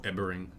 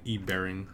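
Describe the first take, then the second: First: "Ebering" said as one joined word; name run together. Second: "E Bering" with E said as a separate letter; name read as two words. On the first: Offering the other reading of a username, "Ebering" as one word. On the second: Offering one reading of a username, "E Bering" as two words. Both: Shown as a demonstration. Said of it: "depending on how he wants to pronounce it".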